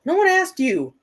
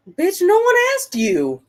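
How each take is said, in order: First: High exasperated retort; annoyed high retort; scolding Alexa. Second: Sharp high scolding snap; irritated snap at a talking gadget; snapping at Alexa. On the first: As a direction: shut the gadget up, higher. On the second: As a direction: tell the smart speaker off, loud and high. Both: Real, not acted.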